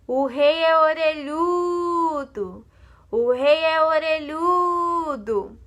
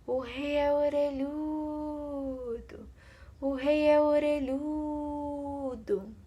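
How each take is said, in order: First: Slow, drawn-out shout, higher and louder; shouting into a hole. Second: Slow, soft, higher windy sighing voice; tree blowing in the wind. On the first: The barber yelling the secret into a hole, slow loud shout. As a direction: yell the secret down into the hole, stretching each word. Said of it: "gritou dentro do buraco". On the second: The tree sighing the secret at night, soft and slow. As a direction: breathe the words out like wind through leaves. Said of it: "a árvore soprava". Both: Acted.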